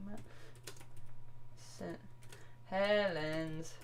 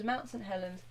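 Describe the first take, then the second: First: Mount Saint Helens said slowly and much softer, word by word; drawn-out quiet dictation while searching; slow, typing it in. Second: Said in the usual way. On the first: Shown as a demonstration. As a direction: mumble each word as you type it. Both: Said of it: "let's have a look".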